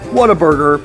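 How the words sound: It is said in a flat, lukewarm way. The burger is just okay. The speaker calls it right. "I'll say, eh, ... It's okay"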